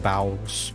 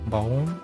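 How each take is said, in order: First: The vowel sounds like the one in 'cow'. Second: The vowel sounds like the one in 'go'. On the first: "like Bowser" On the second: "Maybe it could be bowl"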